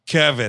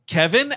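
First: The name is said plainly, as a statement. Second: The name is said in disbelief, as a question.

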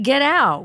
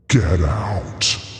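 First: It is said in a normal voice. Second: It is said in a creepy voice.

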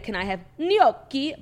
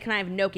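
First: Gnocchi is said with a full Italian accent. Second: Gnocchi is said with a plain American accent.

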